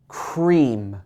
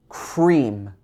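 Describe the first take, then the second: Both takes have the same delivery.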